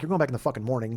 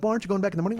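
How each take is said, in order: First: Blunt, plain snap; blunt retort. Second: Higher, polite, careful question. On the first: Pretend. Driver's unspoken reply to a fretting passenger, as a flat blunt retort. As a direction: say what you really think, flatly. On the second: Retold or imitated. Driver politely questioning a fretting passenger, in a higher innocent tone. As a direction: ask it nicely and innocently. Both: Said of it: "but I didn't say it like that".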